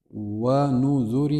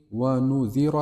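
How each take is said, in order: First: ونذر drawn out very slowly, syllable by syllable; slow model reading. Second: Said in the usual way. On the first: Shown as a demonstration. Teacher first models ونذر slowly for students, drawn out. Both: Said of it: "same word read twice".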